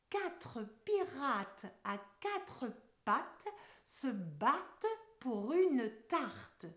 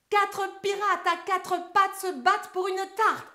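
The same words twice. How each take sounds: First: The sentence is spoken very slowly. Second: The sentence is spoken very fast. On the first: "d'abord ensemble très lentement" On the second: "mot vitesse!"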